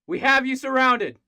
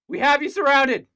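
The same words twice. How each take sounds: First: The voice stays steady while saying it. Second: The voice cracks while saying it.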